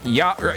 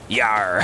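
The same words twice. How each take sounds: First: A weaker, less convincing pirate voice. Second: A full, convincing gravelly pirate voice. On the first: The speaker calls it wrong. "If I try to do it without one eye closed, it sounds like this" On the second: The speaker calls it right. "closing one eye when you do that voice helps a lot"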